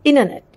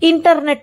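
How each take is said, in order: First: The t after n is dropped. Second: The t after n is pronounced. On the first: The speaker calls it right. "ఎన్ పక్కన టీ వచ్చినప్పుడు తినేయాల టీ" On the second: The speaker calls it wrong. "ఇంటర్నెట్ అంటాం మనం"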